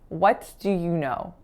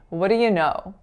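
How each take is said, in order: First: The T is released and 'do' is full. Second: The T is flapped and 'do' becomes a schwa. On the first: The speaker calls it wrong. "with a released T going into the word do" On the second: The speaker calls it right. "make a flap there"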